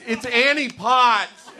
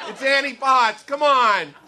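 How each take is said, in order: First: "It's Annie Potts" stretched slowly, higher and loud; drawn-out exasperation. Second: Higher, louder, quicker "It's Annie Potts" with a laugh; exasperated God. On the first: God to the clueless friends, slow, high and fed up. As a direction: spell it out slowly like to a child. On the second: God scolding the stoned friends, high and loud. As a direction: snap it at them, fed up. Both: Acted. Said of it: "I picture God up in heaven, like, watching us going".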